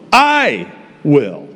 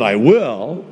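First: "I" stressed, falling. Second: "will" stressed, rising; wrong stress on will. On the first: Pastor correcting the congregation, stress on I. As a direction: lean on "I", not "will". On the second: Pastor showing the congregation the wrong stress on will. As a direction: lean on "will", not "I". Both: Shown as a demonstration.

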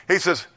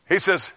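The two takes are said the same way.

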